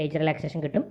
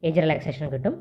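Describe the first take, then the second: No difference in how they are said.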